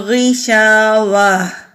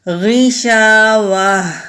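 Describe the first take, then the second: First: The word stops, ending in a soft h sound. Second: The word stops, ending in a soft h sound.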